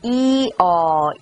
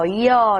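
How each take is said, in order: First: The two vowels are said as separate syllables. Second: The two vowels blend into one syllable. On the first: "This is a combination of E and aw" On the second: "try to have only one syllable for ya"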